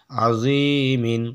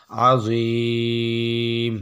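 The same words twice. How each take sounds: First: "আজিমিন" slow, ending sounded as "min"; full ending with tanween. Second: "আজিম" with a very long ee, closing on m; three-alif waqf stretch. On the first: Teacher joining the syllables, "আজিমিন" with its tanween sounded. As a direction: stretch the ee briefly, then pronounce "মিন". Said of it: "মিম দুই জের মিন". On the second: Teacher showing a pause ending, "আজিম" greatly lengthened. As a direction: hold the ee level, then stop on "ম". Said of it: "তিন আলিফ টেনে পড়বো". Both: Shown as a demonstration.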